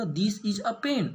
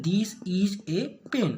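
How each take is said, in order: First: "a" said as a short "uh", slow, no stress on "pen"; plain book-reading "a" as "uh"; weak form a. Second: "pen" hit hard, very slow, a said as "ay"; stress on pen. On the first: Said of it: "ए का उच्चारण मैंने क्या किया, अ किया". ("a" को कमज़ोर "अ" की तरह, धीमे) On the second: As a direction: point at the object and lean on "pen". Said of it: "मतलब पेन पे जोर दे रहा हूँ". ("pen" पर ज़ोर, बहुत धीमे) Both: Shown as a demonstration.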